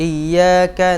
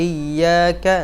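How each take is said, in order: Both takes have the same delivery.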